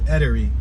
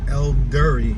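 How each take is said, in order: First: It is said with no L before the D. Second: It is said with an L before the D. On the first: "but it's Edery" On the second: "or Eldery"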